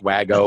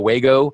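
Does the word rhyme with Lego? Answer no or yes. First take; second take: no; yes. First: The word is said not rhyming with Lego. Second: The word is said to rhyme with Lego. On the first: It is the proper name of the brand. The speaker calls it right. "I think it's pronounced Wago" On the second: It is altered to make a pun. The speaker calls it wrong. "I've changed the pronunciation of these guys to fit my cutesy little article"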